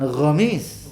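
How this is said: The word begins with a throaty 'gh' sound. "dengan gomis gitu ya"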